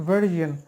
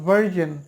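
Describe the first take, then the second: First: The middle consonant is a buzzing zh sound. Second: The middle consonant is a buzzing zh sound.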